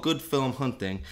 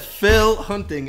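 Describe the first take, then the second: First: "Film" said fully with the L and M, in the plain voice; "Good Film Hunting", with "Film" clearly said and not "Phil". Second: "Phil" said with a clear F sound and no M, as in the name Phil; slow, raised "Phil Hunting" with "Phil" as the name Phil. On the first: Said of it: "The show is called Good Film Hunting". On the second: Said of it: "I said Phil Hunting in the previous intro". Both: Shown as a demonstration.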